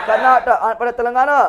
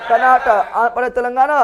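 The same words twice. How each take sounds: The two takes are said the same way.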